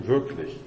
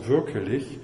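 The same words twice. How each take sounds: First: Said in the usual way. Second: "wirklich" with an extra schwa, wir-ke-lich; archaic form. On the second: Shown as a demonstration. Lecturer cites the mystics' word "wirklich" as wir-ke-lich, archaic form. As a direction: say "wirklich" in three syllables. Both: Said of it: "haben es gebildet aus".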